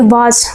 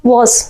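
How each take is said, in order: First: Said in the usual way. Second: वाज with rounded w and short vowel; rounded WAS. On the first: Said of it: "ये गलत पढ़ते हैं". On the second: Shown as a demonstration. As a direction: say वाज as "wuoz", lips rounded. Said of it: "हम क्या पढ़ेंगे?". (वाज को गोल होंठ से "वॉज़" बोलें)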